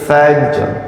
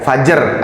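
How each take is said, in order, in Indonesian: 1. Huruf j dan r disambung tanpa vokal. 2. Ada vokal yang disisipkan di antara huruf j dan r. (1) "jimnya dikolkolahin dulu baru ke ro" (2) "jangan sampai kedengeran jadinya fajar"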